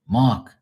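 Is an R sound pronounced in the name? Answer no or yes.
no. The name is said without an R sound. This is how locals say it. "There's no R"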